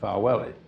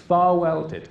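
First: It is said in a Lincolnshire accent. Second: It is said in a posh Oxford accent. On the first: "I'll give you a little Lincolnshire accent with it" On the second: "that's the very posh Oxford pronunciation"

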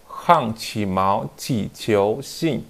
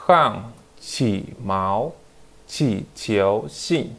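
First: The phrase is read at a faster pace. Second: The phrase is read at a slower pace.

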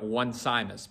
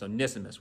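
First: The name begins like the English word 'one'. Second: The name does not begin like the word 'one'. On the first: The speaker calls it wrong. "I know that looked like one Simus" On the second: The speaker calls it right. "but again, it's Onesimus"

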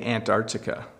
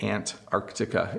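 First: The word is said quickly without the first 'c' sound. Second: The word is said carefully with the first 'c' sound. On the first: "if I say it quickly, I say Antarctica. You don't really hear the C" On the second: "That would be the very the proper way to pronounce it"

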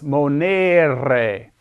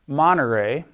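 First: The middle e vowel is long. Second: The middle e vowel is short. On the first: The speaker calls it right. "It's monere. This E is long" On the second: The speaker calls it wrong. "It's not monere"

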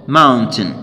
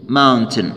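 The two takes are said the same way.

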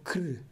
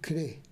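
First: The vowel is dropped entirely. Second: The vowel is pronounced as an e sound. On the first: The speaker calls it wrong. "ou cr" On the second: The speaker calls it right. "nós devemos crê"

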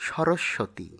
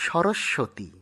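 The two takes are said the same way.

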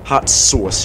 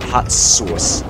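First: It is said in the speaker's ordinary accent. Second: It is said in a New York accent.

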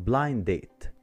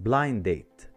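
No difference in how they are said.

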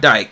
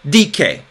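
First: It is said like the English word dike. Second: It is said the Greek way, unlike English. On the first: The speaker calls it wrong. "It looks like dike, but it's not dike" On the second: The speaker calls it right. "It's dike"

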